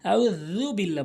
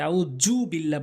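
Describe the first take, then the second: First: The consonant is made with the tongue tip between teeth. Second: The consonant is made without the tongue between teeth. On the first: The speaker calls it right. "ওখানে তো রাল রয়েছে, আউযু বিল্লাহ বলতে হবে" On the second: The speaker calls it wrong. "বলা যাবে না"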